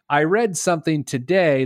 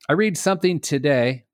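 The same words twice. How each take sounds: First: The word read rhymes with bed. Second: The word read rhymes with need. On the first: The speaker calls it right. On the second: The speaker calls it wrong.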